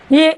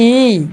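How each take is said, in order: First: ई cut short, over at once. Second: ई held out long. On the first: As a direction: say a quick, short ई. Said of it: "या ई मध्ये shortcut". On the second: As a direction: stretch ई into a long vowel. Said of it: "पण मोठी आहे ई". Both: Shown as a demonstration.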